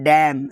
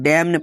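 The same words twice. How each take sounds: First: The final N is silent. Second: The final N sound is pronounced. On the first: The speaker calls it right. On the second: The speaker calls it wrong.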